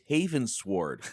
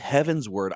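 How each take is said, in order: First: It is said as haven plus sword. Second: It is said as heaven plus ward. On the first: The name means a sword forged in Haven. The speaker calls it wrong. "I thought it was Haven Sword" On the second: The name means toward the heavens. The speaker calls it right. "it's Heaven's Word"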